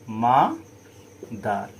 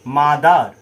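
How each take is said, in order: First: mother split slowly as মা, pause, দার; syllable by syllable. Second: Said in the usual way. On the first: Shown as a demonstration. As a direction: stretch and separate the two syllables of mother. (Mother ধীরে দুই ভাগে ভেঙে) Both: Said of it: "এখানে দেখো দুটো syllable আছে".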